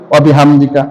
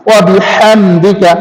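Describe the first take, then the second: First: ওয়া বিহামদিকা said quickly with a plain ha; the careless way, ওয়া বিহামদিকা rushed; wrong pronunciation. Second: ওয়া বিহামদিকা slow and careful, each sound clear; correct pronunciation. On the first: Teacher showing the common mistake, quick plain reading. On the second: Teacher giving the correct version after the mistake, slow and careful. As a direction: recite ওয়া বিহামদিকা slowly and precisely. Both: Shown as a demonstration. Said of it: "না, ওয়া বিহামদিকা না".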